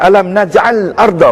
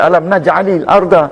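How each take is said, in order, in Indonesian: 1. Naj'al bertemu arda tanpa vokal penyambung. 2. Naj'al bersambung ke arda dengan tambahan vokal 'i'. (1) "Tapi dari segi hukum bacaan, salahlah" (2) "Kita kena baca alam naj'alil arda"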